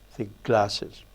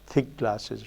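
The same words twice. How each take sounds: First: The stress falls on the word glasses. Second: The stress falls on the word thick. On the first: "rather than" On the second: "most of these Englishes has have this production"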